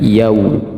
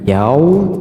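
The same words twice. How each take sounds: First: The vowel sounds like u. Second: The vowel sounds like o. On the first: The speaker calls it right. "yaumi bukan pakai o ya, tetapi u" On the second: The speaker calls it wrong. "bukan yau"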